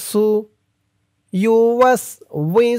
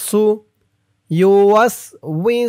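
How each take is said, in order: The two takes are said the same way.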